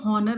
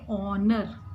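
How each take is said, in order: First: The word begins with an h sound. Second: The word begins with a vowel sound. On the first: The speaker calls it wrong. "इसको हॉनर नहीं पढ़ना" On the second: The speaker calls it right. "आप एच को नहीं बोलेंगे, सिर्फ बोलेंगे ऑनर"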